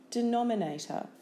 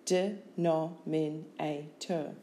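First: Said in the usual way. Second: Slow "Denominator" as de, nom, in, a, tor; syllable by syllable. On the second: Shown as a demonstration. Teacher giving syllables for spelling, Denominator slowly in beats. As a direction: break Denominator into five separate beats.

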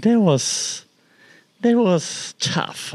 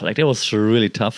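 First: Voice breaking. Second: Said in the usual way. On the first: Real, not acted. Recalling the cat's death.

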